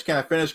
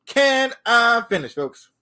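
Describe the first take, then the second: First: Said in the usual way. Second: Much higher, slow, stretched out and pleading; exasperated drawn-out plea. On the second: Real, not acted. Cohost keeps cutting in, so a slow exasperated plea. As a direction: drag it out, exasperated. Repeatedly demanding to finish.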